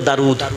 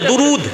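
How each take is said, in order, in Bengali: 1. প্রথম স্বরধ্বনিটি খোলা a ধ্বনি। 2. প্রথম স্বরধ্বনিটি u ধ্বনি। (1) "দালকে বারিক করে পড়ি তো" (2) "উর্দুতে হলে"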